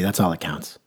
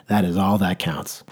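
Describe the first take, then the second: First: Said in the usual way. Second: Slower, each word given weight; slow emphatic. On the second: Shown as a demonstration. Speaker repeating his motto, slow and emphatic. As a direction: spell out "That is all that counts" slowly.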